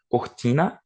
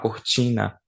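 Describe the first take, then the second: First: The T is a crisp, dry stop. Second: The T has a hissing, ch-like sound. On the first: This is how the speaker herself talks. "eu falo um T mais seco" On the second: This is how people from other regions talk. "Outras pessoas vão falar cortina"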